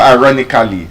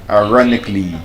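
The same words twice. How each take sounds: First: The ending is said as a full 'cally'. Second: The ending is reduced to a short 'clee'. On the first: The speaker calls it wrong. "it's not" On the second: The speaker calls it right. "just pronounce it as clee"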